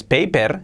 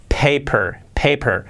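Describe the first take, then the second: First: "paper" as PEI-per, Spanish vowels and tapped r; Spanish-accented English. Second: "paper" as PAY-pur with an English r; native English pronunciation. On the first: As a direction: give "paper" a Spanish learner's r and clear e. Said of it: "sí, pero mucho mejor decir". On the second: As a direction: model "paper" the native way, reduced second vowel. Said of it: "mucho mejor decir". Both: Shown as a demonstration.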